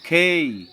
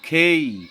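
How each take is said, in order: First: It is said the way native English speakers do. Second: The same.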